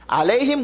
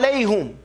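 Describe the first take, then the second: First: The word ends with an i vowel before m. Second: The word ends with a u vowel before m. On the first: This is one recitation. "Alayhim wa alayhum. These are different recitations" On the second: This is another recitation. "Alayhim wa alayhum. These are different recitations"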